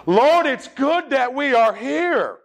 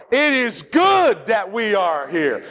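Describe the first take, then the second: First: High, slow Southern drawl; drawn-out, higher-pitched Southern recitation; Southern accent. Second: Slow, emphatic call for everyone to join; slow unison-leading delivery; led group recitation. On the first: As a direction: stretch it out with lots of Southern accent. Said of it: "get a lot of Southern accent into it". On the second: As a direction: say it slowly for a congregation to follow. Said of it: "Now let's put it all together". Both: Shown as a demonstration.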